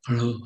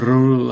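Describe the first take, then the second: First: The sound is light and soft. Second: The sound is strong and rolled. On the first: "더 엷은 소리를 할 때에는 목구멍을 열어서 르 하고 살짝 발음" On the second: "더 강한 르를 발음하려면 ... 굴러가는 소리"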